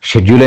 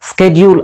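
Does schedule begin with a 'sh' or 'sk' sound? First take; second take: sh; sk. First: The word begins with a 'sh' sound. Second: The word begins with a 'sk' sound. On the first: "UK pronunciation" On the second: "US pronunciation"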